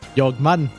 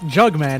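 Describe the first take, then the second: First: The name begins with a Y sound. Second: The name begins with a J sound. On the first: "you pronounce the J with a Y. It's Swedish Jugman" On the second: "it's Jugman"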